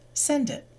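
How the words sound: The two words are linked smoothly together.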